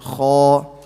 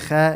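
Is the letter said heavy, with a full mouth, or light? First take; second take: heavy; light. First: The letter is said heavy, with a full mouth. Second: The letter is said light, with a thin mouth. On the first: The speaker calls it right. "you say kha" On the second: The speaker calls it wrong. "you don't say kha"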